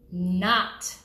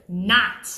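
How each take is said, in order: First: NOT set off by pauses; stress on NOT. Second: NOT punched louder, standing alone; stress on NOT. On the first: Loan officer warning borrowers about underwriters, stressing NOT. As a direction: hold NOT back, then land it alone. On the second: Loan officer repeating the underwriter's job, NOT stressed hard. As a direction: hit NOT hard and let it hang. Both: Shown as a demonstration. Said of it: "I stress the word".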